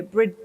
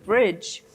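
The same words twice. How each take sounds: First: "Bridge" misread as brid-guh, sounding out the D; "Bridge" said wrongly as two chunks, brid and guh. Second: Said in the usual way. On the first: Shown as a demonstration. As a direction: read "Bridge" aloud like a child stumbling on the silent D. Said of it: "it's got a D in it".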